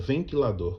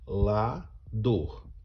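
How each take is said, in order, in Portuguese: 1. A palavra é dita em velocidade normal, sem interrupções. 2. A palavra é dita devagar, com as sílabas separadas.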